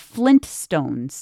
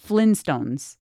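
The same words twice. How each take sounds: First: A clear T sound follows 'Flin'. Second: No T sound follows 'Flin'. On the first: The speaker calls it right. "they're the Flintstones" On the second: The speaker calls it wrong. "not Flintstones"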